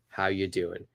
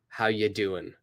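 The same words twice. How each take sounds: First: 'Are' is dropped completely, leaving 'how you doing'. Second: The same.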